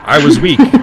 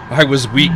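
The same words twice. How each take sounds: First: It is read in an imitated character voice. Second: It is read in the speaker's ordinary voice.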